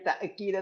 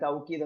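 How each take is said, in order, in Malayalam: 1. മധ്യത്തിൽ ഗ്ലോട്ടൽ സ്റ്റോപ്പ് കേൾക്കുന്നു. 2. മധ്യത്തിൽ 'w' ശബ്ദം കേൾക്കുന്നു. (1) "ഹംസിട്ടും പറയാം" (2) "ഹംസ് മാറ്റിയിട്ട് വാവിട്ടും പറയാം"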